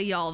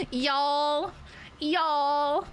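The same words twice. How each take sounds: First: Said in the usual way. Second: Higher, drawn-out Southern "y'all"; Southern accent. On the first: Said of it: "I don't say it, like, in a Southern accent". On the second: Acted. Streamer playing with a word she uses, mock Southern accent. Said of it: "in a Southern accent".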